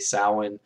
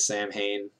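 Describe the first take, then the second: First: It is said as one blended word, not 'Sam Hain'. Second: It is said as two parts, 'Sam' and 'Hain'. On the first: The speaker calls it right. "It is actually Samhain" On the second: The speaker calls it wrong. "which is a mispronunci- mispronunciation of the word"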